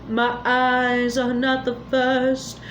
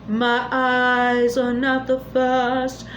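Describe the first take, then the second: Both takes have the same delivery.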